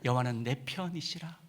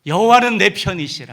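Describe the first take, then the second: First: Quiet reading. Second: 여호와는 punched high and loud, falling at the end; loud declaration. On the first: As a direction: read it softly to yourself. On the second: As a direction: shout it out as a triumphant declaration. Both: Shown as a demonstration.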